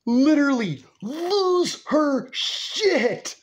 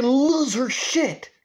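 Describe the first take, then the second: First: Each word of "lose her shit" held high and separate; very high, stretched LOSE and punched SHIT; exaggerated emphasis. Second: Drawn-out LOSE, pitched well up; emphatic. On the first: Repeats it with greater emphasis. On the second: Retold or imitated. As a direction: LOSE stretched out and raised high. Telling how grandma blew up.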